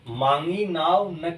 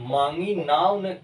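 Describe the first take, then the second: The two takes are said the same way.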